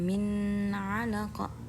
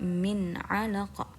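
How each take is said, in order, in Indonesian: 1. Bunyi n dipanjangkan. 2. Bunyi n jelas dan pendek. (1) "Jadi bukan min 'alaqa" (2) "harus jelas dan tidak panjang"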